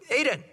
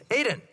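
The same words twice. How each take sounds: The two takes are said the same way.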